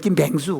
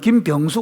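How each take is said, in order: First: The second syllable has the vowel 'ae'. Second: The second syllable has the vowel 'yeo'. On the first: The speaker calls it wrong. "경남 사람들은 ... 김뱅수 그럽니다" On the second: The speaker calls it right. "김병수 그래야 되는"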